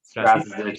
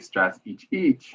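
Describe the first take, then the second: First: The name has an Americanized English pronunciation. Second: The name has its original Croatian pronunciation. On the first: This is the adapted everyday version. "Strazic is the Americanized version" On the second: This is the technically correct family pronunciation. "It's technically Strazic"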